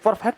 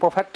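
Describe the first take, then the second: First: The r sound is clearly pronounced. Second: The r sound is left silent. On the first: The speaker calls it wrong. "ये perfect नहीं है" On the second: The speaker calls it right. "इसमें ये आर silent रहेगा"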